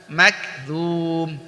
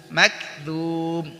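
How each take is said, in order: The two takes are said the same way.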